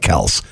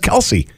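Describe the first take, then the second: First: The name is said with one syllable. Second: The name is said with two syllables. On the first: The speaker calls it right. "Looks like Kels" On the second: The speaker calls it wrong. "everybody says Kelce"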